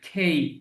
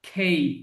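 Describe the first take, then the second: The two takes are said the same way.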